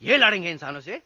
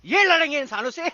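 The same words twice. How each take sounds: First: Quick, low incredulous question; scornful disbelief. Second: Mocking disbelief. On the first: Acted. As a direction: scoff at the very idea, starting low. Scoffing at the monkey army. (अविश्वास भरा तेज़ सवाल) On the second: Repeats the scoff, louder. (खिल्ली उड़ाता, ऊँचे सुर का सवाल)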